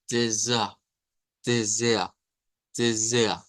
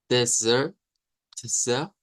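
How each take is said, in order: First: "desert" ending in an open A in place of R, falling; German-accented "tsea" without a sounded R; German vocalized R. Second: "desert" ending in a pronounced "er", rising; learner's "tser" with an audible R. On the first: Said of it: "un acento más del Deutsch propia". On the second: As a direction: say "desert" with the final R sounded. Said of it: "con la R, er, al final". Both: Shown as a demonstration.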